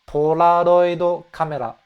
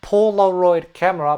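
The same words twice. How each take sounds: First: It has a Japanese pronunciation with soft L-like sounds. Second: It has an English pronunciation with English R sounds. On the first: The speaker calls it right. "but Polaroid camera" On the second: The speaker calls it wrong. "it's not Polaroid camera"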